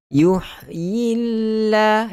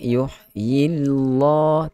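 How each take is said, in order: First: The lam sound is light and thin. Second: The lam sound is heavy and thick. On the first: The speaker calls it right. "dia nipis" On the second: The speaker calls it wrong.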